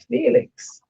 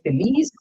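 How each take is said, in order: First: The name ends with a 'ks' sound. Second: The name ends with an 's' sound. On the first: The speaker calls it wrong. "His name is not Felix" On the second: The speaker calls it right. "As he said, Feliz... Pronounce it right"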